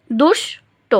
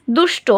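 First: "দুষ্ট" broken as দুষ, pause, টো; syllable by syllable. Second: Said in the usual way. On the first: Shown as a demonstration. Teacher sounding out the example, "দুষ্ট" syllable by syllable. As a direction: split "দুষ্ট" into two separate beats. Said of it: "প্রথমে একবার উচ্চারণ করি". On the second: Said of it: "এই শব্দটাকে আমরা".

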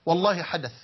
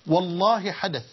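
First: Said in the usual way. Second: Slow, drawn-out stress on والله; emphatic repeat. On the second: Real, not acted. Preacher swears to listeners that it happened, emphatic drawn-out oath. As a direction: stretch out والله to insist on it.

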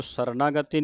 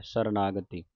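First: ਸਰਨਾਗਤੀ broken apart as separate pieces; ਸਰਨਾਗਤੀ said in parts, the way not to read it; wrong reading shown. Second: ਸਰਨਾਗਤੀ said as one joined word; ਸਰਨਾਗਤੀ joined, as the teacher's model; correct reading. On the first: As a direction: say ਸਰਨਾਗਤੀ split up, as the mistake. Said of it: "ਸਰਨਾਗਤੀ ਨਹੀਂ ਕਹਿ ਦੇਣਾ". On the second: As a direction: read ਸਰਨਾਗਤੀ together in one breath. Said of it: "ਸਰਨਾਗਤੀ ਇਕੱਠਾ ਪਾਠ ਹੈ". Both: Shown as a demonstration.

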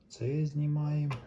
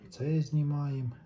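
Both takes have the same delivery.

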